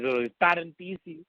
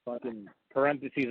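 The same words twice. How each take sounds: First: "parentheses" said higher and slow as "pa-TEN-ti-see"; "parentheses" in mock heavy accent; teacher's accent. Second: Said in the usual way. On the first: Shown as a demonstration. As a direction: drop the r and drag "parentheses". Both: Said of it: "the heaviest goddamn accent".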